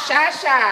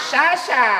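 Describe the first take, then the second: The two takes are said the same way.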